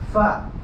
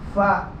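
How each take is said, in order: First: It starts with a breathy f sound. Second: The same.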